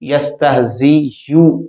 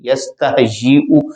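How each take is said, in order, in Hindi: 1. अंत में 'y' glide है, फिर 'u'। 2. अंत में ग्लॉटल ठहराव है, फिर 'u'। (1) "यस्तहज़ियु की आवाज नहीं है" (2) "ऊ की आवाज, हमजा की"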